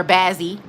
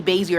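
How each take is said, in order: First: Bazzie, short flat first vowel; alternative pronunciation. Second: Basie, first syllable like bay; alternative pronunciation. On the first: Streamer unsure of viewer's name, offers Bazzie with short a. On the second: Streamer unsure of viewer's name, offers Basie with long a. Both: Shown as a demonstration. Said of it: "It could be Basie or Bazzie".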